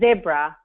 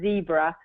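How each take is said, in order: First: Zebra is said in a non-American pronunciation. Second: Zebra is said in an American pronunciation.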